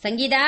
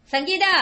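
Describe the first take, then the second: First: Said in the usual way. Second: Calling the name out high and rising; urgent call. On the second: Acted. Mother urgently calling her daughter over a letter. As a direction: summon her urgently from another room. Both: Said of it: "ஏன் இப்படி கூப்பிடுற?".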